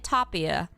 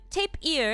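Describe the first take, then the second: First: The first syllable sounds like 'top'. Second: The first syllable sounds like 'tape'. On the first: "I say top ear" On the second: "is that how you say it?"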